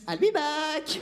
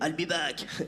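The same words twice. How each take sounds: First: It is said in a light, girlish voice. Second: It is said in a deep, tough voice. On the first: "c'est pas une voix très euh, Terminator" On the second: "vous vous souvenez de Schwarzenegger quand il disait"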